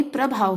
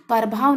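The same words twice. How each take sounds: First: Said in the usual way. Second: प्रभाव said "parbhaav", A before the R; split cluster. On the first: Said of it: "प्रभाव होता है". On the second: Shown as a demonstration. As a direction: open प्रभाव with "par" instead of "pra". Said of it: "नहीं प्रभाव होता है".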